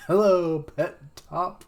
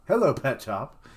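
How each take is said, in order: First: Hello thrown out high and loud, then Pet Top; a goofy sing-song call to the dog; silly greeting. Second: Said in the usual way. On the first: Shown as a demonstration. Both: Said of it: "It's like Carrot Top".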